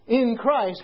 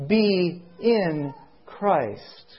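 First: "in" picked out before "Christ"; stress on "in". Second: "be" drawn out slowly, set apart from "in Christ"; stress on "be". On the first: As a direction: put the weight on "in". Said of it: "In is the important word". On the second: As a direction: lean long on "be", then slowly finish. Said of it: "I want to emphasize the word". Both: Shown as a demonstration.

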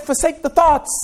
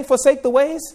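First: "thoughts" hit hard as the right version; stress on thoughts. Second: "Forsake" lifted, "the ways" trailing off as the wrong version; stress on forsake. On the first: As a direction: punch the word "thoughts". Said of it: "He said". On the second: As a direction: lean on "Forsake" and let "ways" drop. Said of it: "he did not just say". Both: Shown as a demonstration.

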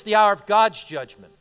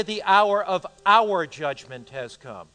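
First: "God's" punched as the answer; emphatic "God's", falling away after it; stress on GOD'S. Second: Slow reading leaning on "our"; "our" weighted heavily, as a doubtful reading; stress on OUR. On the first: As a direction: lean firmly on the word "God's". Gives the corrected reading of text. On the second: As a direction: draw out and punch the word "our". Tests a wrong reading of text. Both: Shown as a demonstration.

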